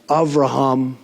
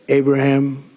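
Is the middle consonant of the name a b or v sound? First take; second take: v; b. First: The middle consonant is a v sound. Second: The middle consonant is a b sound.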